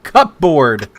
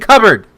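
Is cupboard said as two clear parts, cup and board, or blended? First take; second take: two parts; blended. First: The word is said as cup plus board. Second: The word is blended, without a clear p. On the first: The speaker calls it wrong. "not cupboard" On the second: The speaker calls it right. "Indian in the cupboard"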